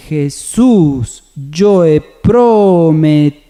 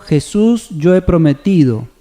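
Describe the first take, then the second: First: Slow, drawn-out stress on the SÚS of "Jesús", the PRO and TI of "prometido"; accented syllables. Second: Said in the usual way. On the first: Shown as a demonstration. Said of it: "Si vemos su correcta acentuación, sería". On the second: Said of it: "Si vemos su correcta acentuación".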